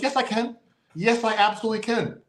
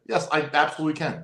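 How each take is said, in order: First: High, emphatic "Yes, I absolutely can"; defiant insistence. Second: Said in the usual way. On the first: Retold or imitated. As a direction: hit "Yes" and "absolutely" hard, cocky. Defiant reply retold.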